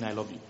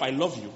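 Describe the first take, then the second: First: Low, soft declaration of love; understated tender murmur; emotion let out. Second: Said in the usual way. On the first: Shown as a demonstration. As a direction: say "I love you" softly and low, with feeling. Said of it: "let it express when I'm saying". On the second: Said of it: "I might not feel emotional".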